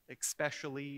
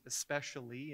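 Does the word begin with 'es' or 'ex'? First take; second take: ex; es. First: The word begins with an 'ex' sound. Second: The word begins with an 'es' sound. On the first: The speaker calls it wrong. "Especially is especially" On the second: The speaker calls it right. "Especially is especially"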